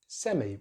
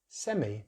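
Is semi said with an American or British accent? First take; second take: British; British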